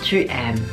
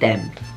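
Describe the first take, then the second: First: The pronoun is said fully as a separate syllable. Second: The pronoun is shortened and joined to the verb. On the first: This is the standard written form. "kalau ngomongin untuk tulisan itu selalu jadi tu aimes" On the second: This is casual everyday speech. "secara ngomong biasa, biasanya orang Prancis disingkat juga jadi t'aimes"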